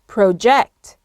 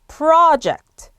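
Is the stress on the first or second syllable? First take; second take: second; first. First: The stress is on the second syllable. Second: The stress is on the first syllable. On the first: It is a verb meaning to throw or send forward. "액센트가 ject에 오는 거고요" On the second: It is a noun meaning a planned undertaking. "앞에 강세를 두고 액센트가 앞에 와야 됩니다"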